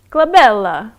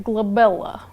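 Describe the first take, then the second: First: Glabella said in a hammed-up Italian accent, rising at the end; a playful mock Italian glabella. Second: Glabella said in a mock Russian accent; lightly voiced Russian accent on glabella. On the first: Streamer does Italian accent on request. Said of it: "An Italian accent". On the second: Streamer answers chat in mock Russian accent. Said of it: "I wanna say it in a Russian accent". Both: Shown as a demonstration.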